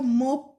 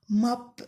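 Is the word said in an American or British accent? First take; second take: British; American. First: The vowel is rounded, with lips pushed forward. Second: The vowel is open, as in hat. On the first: "احنا بنشتغل بالبريتش" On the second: "الامريكانيين بينطقوا الاو فتحه، زي هات"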